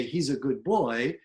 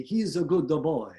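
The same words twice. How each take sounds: First: Said in the usual way. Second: Cartoonish Italian with an extra vowel pulse; Italian accent. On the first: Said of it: "if you're going to say". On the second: Shown as a demonstration. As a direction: add little vowels between words, Italian-style. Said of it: "in Italian accent".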